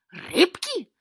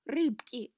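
First: Loud, high outburst rising at the end; roared question. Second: Falling, grumbled confirmation; grumbled reply. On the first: Grenka roars back at the cat's confession, incredulous. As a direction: roar it in outraged disbelief. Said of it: "рявкнула Гренка". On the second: Cornered cat answers Grenka's roar, grumbling. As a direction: grumble it back, less high than the roar. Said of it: "тихо буркнул себе под нос кот". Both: A narrator's reading.

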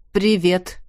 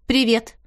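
First: A strained, tight Привет in another voice; tense greeting. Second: Said in the usual way. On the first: A narrator's reading. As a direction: answer the hello as if braced for trouble. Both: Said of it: "Голос коллеги был очень напряжённый".

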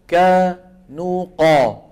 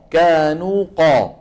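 First: Slow كانوا قا with a light kaf and a heavy قاف; teacher slowly contrasting kaf and qaf; slow contrast demo. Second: كانوا قا said a little quicker, qaf still heavy; teacher repeating the kaf and qaf contrast; contrast demo again. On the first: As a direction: draw out كانوا قا, thin kaf then full qaf. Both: Shown as a demonstration. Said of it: "فالصوت وين عم يتصاعد؟ عند القاف".

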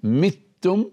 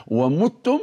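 First: متم read "mittum", i-vowel after the first mim; kasra on the mim. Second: ومتم read "wa-muttum", u-vowel after the mim; damma on the mim. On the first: Teacher showing students one of two valid readings, متم pronounced "mittum". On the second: Teacher showing students the other valid reading, ومتم pronounced "wa-muttum". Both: Shown as a demonstration. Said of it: "تقرأ متم ومتم".

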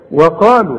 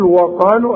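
First: وقالوا with a thin, light و; correct light waw. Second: وقالوا with a thick, heavy و; wrong heavy waw. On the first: Teacher showing the student the right way. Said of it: "مرققة". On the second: Teacher showing the student the wrong way. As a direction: mispronounce it heavy on purpose. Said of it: "أقول لك غلط". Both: Shown as a demonstration.

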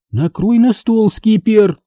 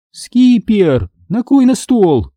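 First: "Накрой на стол" slow and firm, high; stern repeat. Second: High slow call after him. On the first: Mom sternly repeats order to set table, slow firm. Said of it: "строго повторила мама". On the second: Mom calls after son to set the table, high call. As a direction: call "накрой на стол" across the house. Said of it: "крикнула мама мне вслед". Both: A narrator's reading.

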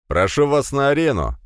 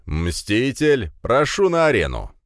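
First: Loud, high arena announcement; announcer call. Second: Booming announcer. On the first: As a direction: ring it out to the crowd. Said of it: "объявил он". (громкое объявление) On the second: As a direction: summon the fighter to the ring. Announcer calls the fighter in. (громогласный ведущий) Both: Acted.

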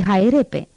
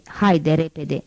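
First: „Hai repe” bellowed, syllables swallowed, not a human word; bellowed clipped command. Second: Said in the usual way. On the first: A narrator's reading. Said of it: "accentul cu care rostise asta". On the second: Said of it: "Javert nu spusese".

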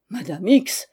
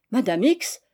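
First: Mildly affronted, formal address; stiffly offended use of the name; indignant reply. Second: Startled exclamation, rising at the end; mildly surprised cry of recognition; exclaiming. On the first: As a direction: address her sternly, drawn up tall. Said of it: "en se redressant de toute sa hauteur". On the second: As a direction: cry out the name on seeing her. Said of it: "s'écria madame Y". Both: A narrator's reading.

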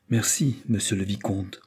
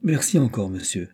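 First: A touch of hurt pride in a curt thanks; wounded pride. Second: Gentler thanks, trailing softer on monsieur; soften, touched by his tact. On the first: Boy stung by the offer to ride with the lackey, coolly proud. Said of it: "accentuées avec un timbre si expressif". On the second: Boy thanking Isidore for his delicate offer, gently. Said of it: "d'une voix plus douce". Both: A narrator's reading.

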